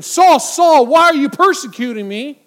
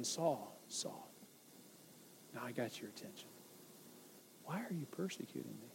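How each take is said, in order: First: Thundering divine voice, much louder and higher; shouted Saul Saul, full force; booming shout. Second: Hushed, much softer and lower; whispered Saul Saul, barely there. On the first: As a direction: boom it out like a voice from heaven. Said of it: "It could have been". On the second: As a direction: breathe it gently like a quiet inner voice. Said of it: "Or it could have been". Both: Shown as a demonstration.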